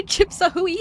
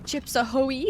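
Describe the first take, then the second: First: High laughing repeat. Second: Said in the usual way. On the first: Shown as a demonstration.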